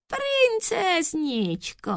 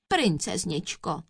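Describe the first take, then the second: First: High, slow, drawn-out cooing; sugary, thin little voice; tiny thin voice. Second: Mildly sweet address; a touch of sugary politeness; sweetly chirping. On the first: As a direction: coo sweetly in falsetto. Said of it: "tenunkým hláskem". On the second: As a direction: coax the princess gently. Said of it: "švitořil Korpus líbezně". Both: A narrator's reading.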